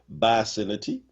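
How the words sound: It is said the Philly way.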